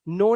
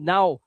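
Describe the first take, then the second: First: The vowel is a plain 'oh' sound. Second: The vowel is a gliding 'ow' sound. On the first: The speaker calls it wrong. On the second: The speaker calls it right.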